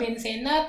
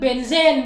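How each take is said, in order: First: The word ends with an added final a. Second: The word ends on the consonant n. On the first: The speaker calls it right. "yang betul adalah benzena" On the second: The speaker calls it wrong. "kebiasaan-kebiasaan menyebut benzen"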